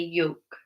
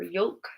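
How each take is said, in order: First: No L sound is pronounced in the word. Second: An L sound is pronounced in the word. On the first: The speaker calls it right. "We say yolk" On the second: The speaker calls it wrong. "we don't say yolk or yolk"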